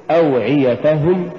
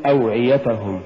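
First: "أوعيتهم" rising, push on ta before hum; correct أوعيتهم. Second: "أوعيتهم" falling, ta unpushed; mispronounced أوعيتهم. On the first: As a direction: lift the ta of أوعيتهم. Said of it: "قل". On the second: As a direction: say أوعيتهم letting ta slip by. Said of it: "ولا تقل". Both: Shown as a demonstration.

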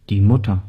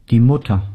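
The two takes are said the same way.

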